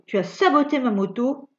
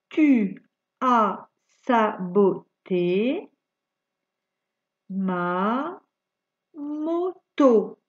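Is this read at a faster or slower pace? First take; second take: faster; slower. First: It is read at a faster pace. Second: It is read at a slower pace.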